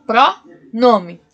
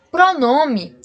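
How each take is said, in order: First: "pronome" said slowly with the stress on "nome"; teacher spelling out "pronome" so pupils hear "nome" inside it. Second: Said in the usual way. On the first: Shown as a demonstration. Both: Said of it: "ó, presta o nome dele".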